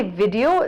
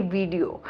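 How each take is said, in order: First: "video" with a clear v and short i; crisp short-i "video"; correct video. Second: "video" with a soft v and long ee; mock long-ee "video"; wrong video. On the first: Shown as a demonstration. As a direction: say "video" as vid-ee-oh. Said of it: "they don't say video". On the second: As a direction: mimic "video" as veee-dio. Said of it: "they say video".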